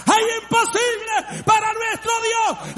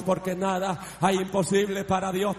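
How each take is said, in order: First: High, loud triumphant cry; triumphant full-voice shout; shouted climax. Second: Said in the usual way. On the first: Acted. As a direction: explode the declaration at the peak. Climax of repeated declaration.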